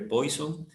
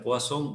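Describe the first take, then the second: First: It is read out just as it is spelled. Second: It is said with its real pronunciation. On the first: "se escribe Poisson" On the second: "pero se pronuncia Poisson"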